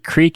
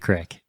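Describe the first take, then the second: First: The vowel is long, like in 'seek'. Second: The vowel is short, like in 'trick'. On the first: This is the way the speaker grew up saying it. "creek is what I grew up knowing" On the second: This is the local way up there. "it might be a crick"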